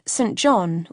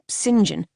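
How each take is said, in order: First: "Saint John" as two words, Saint JON; Saint John as written. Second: "St. John" run together as SIN-jun; pronounced Sinjin. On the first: Narrator gives both names, "Saint John" said as two words. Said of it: "or St. John". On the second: Narrator gives both names, "St. John" said SIN-jun. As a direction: say "St. John" as one word, Sinjin. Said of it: "Since Saint John, or St. John". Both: A narrator's reading.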